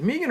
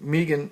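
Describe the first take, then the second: First: "Megan" said as MAY-gan; Maygan pronunciation. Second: "Megan" said as MEE-gan, long ee; Meegan pronunciation. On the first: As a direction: say "Megan" with an ay first vowel. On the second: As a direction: say "Megan" with a long ee first vowel. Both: Shown as a demonstration. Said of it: "is it Megan or Megan?".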